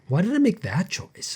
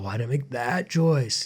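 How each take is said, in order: First: The voice sounds gentle and curious. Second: The voice sounds harsh and judgmental. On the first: The speaker is wondering without blame. The speaker calls it right. "bring that curiosity instead of the judgment" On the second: The speaker is blaming themselves. The speaker calls it wrong. "Instead of, ah, oh"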